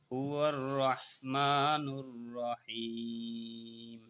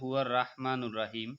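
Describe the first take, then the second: First: The r is heavy with a rounded vowel. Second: The r is light with an open a vowel. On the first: The speaker calls it right. "শাপলা ফুল যেখানে মোটা হবে সেখানে" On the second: The speaker calls it wrong. "অনেকে বলে হুয়ার রাহমানুর রাহিম, রা বলা যাবে না"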